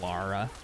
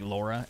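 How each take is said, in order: First: "Lara" said as LAR-uh, with an open ah vowel; correct pronunciation. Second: "Laura" said as LOR-uh, with the rounded aw vowel; American mispronunciation. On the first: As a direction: say "Lara" like Lara Croft. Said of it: "the pronunciation is so similar". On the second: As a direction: say "Laura" the way most Americans misread the name. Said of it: "most Americans think it's Laura". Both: Shown as a demonstration.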